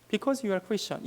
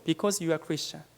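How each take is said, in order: First: Said in the usual way. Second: Slow, weighty quote. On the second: Retold or imitated. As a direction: let each word sink in slowly. Quoting elderly missionary, slow. (천천히 조용하게 또박또박)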